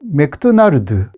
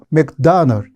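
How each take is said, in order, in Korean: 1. 한국식 발음으로 말합니다. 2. 영어식 발음으로 말합니다.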